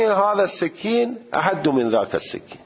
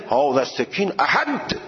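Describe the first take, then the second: First: هذا السکین احد in a high, true Arabic accent. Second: هذا السکین احد read the Persian way; Persian-style Arabic. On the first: Teacher showing real Arabic pronunciation. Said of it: "عربی". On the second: Teacher showing Persian-style Arabic reading. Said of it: "خیلی صفر نگید". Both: Shown as a demonstration.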